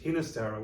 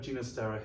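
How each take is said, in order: First: The name begins with an h sound. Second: The name begins with a g sound. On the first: This is how the name is commonly heard. "with a with a typical um, h at the beginning" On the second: This is how the composer preferred it. "he actually preferred Ginastera"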